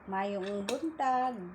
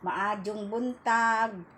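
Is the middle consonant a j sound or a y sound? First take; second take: y sound; j sound. First: The greeting has a y sound in the middle. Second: The greeting has a j sound in the middle. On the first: This is how people from Cebu say it. "sa Bisaya naman sa Cebu" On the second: This is how people from Bohol say it. "Sa Bohol kasi may J"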